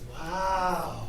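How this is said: It is said with a stunned, shocked tone. The news is hard to believe. "That's crazy"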